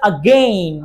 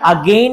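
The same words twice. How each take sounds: First: The first vowel is a reduced schwa. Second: The first vowel is a full vowel. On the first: The speaker calls it right. "না বলে আগেইন" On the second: The speaker calls it wrong. "আগেইন না বলে"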